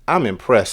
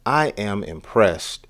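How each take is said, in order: First: It is said quickly, with the words contracted. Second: It is said unhurried, with each word full.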